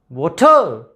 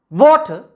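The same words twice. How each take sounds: First: The stress is on the second syllable. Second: The stress is on the first syllable. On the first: The word is used as a verb. "So ta is stressed there. Second syllable is stressed" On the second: The word is used as a noun. "wa is stressed there"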